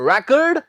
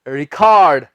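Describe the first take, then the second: First: It is said the way the noun sounds. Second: It is said the way the verb sounds. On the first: It names a thing. "record as a noun" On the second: It names an action. "रिकॉर्ड as a verb"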